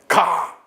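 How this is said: It is said as a command. It orders someone to go. "명령이죠"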